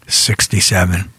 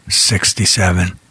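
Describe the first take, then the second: No difference in how they are said.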